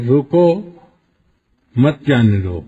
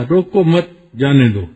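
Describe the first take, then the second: First: "روکو" alone, then a pause, then "مت جانے دو" as one firm order; pause after roko. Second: "روکو مت" run together, then a pause before "جانے دو"; pause after mat. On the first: Preacher shows the original order to stop him, pause after "روکو". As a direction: break after "روکو" so "مت" starts the second part. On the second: Preacher shows the misquoted order, pause after "مت". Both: Shown as a demonstration. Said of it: "اب سننے والا آ کے اس کو نقل یوں کرتا ہے".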